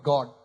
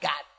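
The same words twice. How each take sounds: First: It is said in a plain Indian accent. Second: It is said in a put-on, foreign-sounding accent. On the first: "Indian God" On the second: "ये तो मेरा फेवरेट है"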